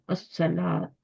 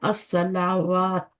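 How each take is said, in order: First: No 'w' sound; the long vowel is read directly. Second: A 'w' sound is read before the final vowel. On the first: The speaker calls it right. "इसका अलिफ ही पढ़ना है बस।" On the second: The speaker calls it wrong. "लोग इसको पढ़ते हैं अस्सलावात, ऐसे नहीं पढ़ना। इसका वाव नहीं पढ़ना।"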